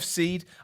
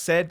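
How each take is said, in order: First: The vowel is long, as in 'need'. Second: The vowel is short, as in 'bed'. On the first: The speaker calls it right. "It's, it's Jeff Seed" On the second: The speaker calls it wrong. "it could be pronounced said, but I doubt it is"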